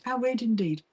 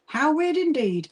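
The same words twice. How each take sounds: First: Said in the usual way. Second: Slow and higher, savoring each word; hamming up the surprise a little; drawn-out mock wonder. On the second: Repeating reply to a viewer.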